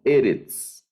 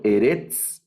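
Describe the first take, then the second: First: Eretz as E-retz, slow and falling; stress on the first syllable. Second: Eretz stressed on the end, e-RETZ; wrong stress. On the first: (Eretz con acento en la primera sílaba) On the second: (Eretz mal acentuado, en la última sílaba) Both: Shown as a demonstration. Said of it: "No leo Eretz".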